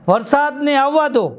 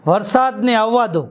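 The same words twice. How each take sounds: First: Slow, lifted recital of વરસાદને આવવા દો; poem title recital. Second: Slow, solemn recital of વરસાદને આવવા દો; poem title recital. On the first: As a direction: repeat વરસાદને આવવા દો slowly with higher pitch. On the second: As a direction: announce વરસાદને આવવા દો slowly like a poet. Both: Shown as a demonstration. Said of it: "આજની મારી કવિતાનું શીર્ષક છે".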